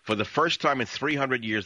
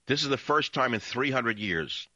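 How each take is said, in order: First: "first" high and louder, hammered; emphatic repeat. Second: "first" lifted high and stressed; emphatic. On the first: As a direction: hit "first" harder the second time. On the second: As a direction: stress "first", building amazement. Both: Shown as a demonstration. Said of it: "You have no idea how big this is".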